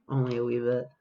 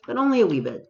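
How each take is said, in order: First: Said in the usual way. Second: High, sing-song "only a wee bit"; mock quaint phrasing. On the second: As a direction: lift "only" high then let "wee bit" fall playfully. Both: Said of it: "No one talks like this".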